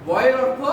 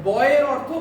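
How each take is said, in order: No difference in how they are said.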